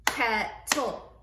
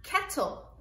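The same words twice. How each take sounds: First: Said in the usual way. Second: Modelled word. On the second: Shown as a demonstration. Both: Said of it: "some words that have L E at the end".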